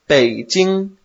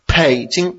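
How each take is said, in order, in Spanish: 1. El primer sonido es una b suave y sin aspiración. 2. El primer sonido es una p fuerte y aspirada. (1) "pero no es así. Es Beijing" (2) "si fuera con P sería Beijing"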